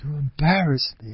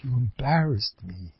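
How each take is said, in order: First: Hurt complaint. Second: Complaining wife. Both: Retold or imitated. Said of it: "So the Mavazani".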